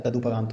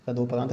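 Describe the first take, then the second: First: तदुपरांत said with a short u after द; the right तदुपरांत, with a clear u; तदुपरांत with u, corrected; correct form. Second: तदोपरांत said with an o after द; the wrong तदोपरांत, plain o sound; तदोपरांत as the mistake, with an o; wrong form said. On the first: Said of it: "तदुपरांत होता है". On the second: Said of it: "तदोपरांत नहीं होता है". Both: Shown as a demonstration.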